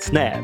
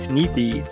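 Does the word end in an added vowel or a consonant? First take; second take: consonant; added vowel. First: The word ends cleanly on the f sound. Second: An extra i vowel follows the final f. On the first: The speaker calls it right. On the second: The speaker calls it wrong.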